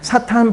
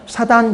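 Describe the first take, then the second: First: The middle consonant is a hard, aspirated t. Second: The middle consonant is a soft, unaspirated d. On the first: "사탄 발음을" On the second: "좀 순한 발음하니까 사단 이렇게 발음이 됩니다"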